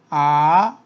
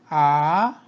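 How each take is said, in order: Both takes have the same delivery.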